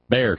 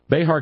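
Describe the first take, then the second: First: The name is said like the word bear. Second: The middle letter is said as an H sound. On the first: The speaker calls it right. "Knew better than to pronounce the X" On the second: The speaker calls it wrong. "We pronounce the X as an H"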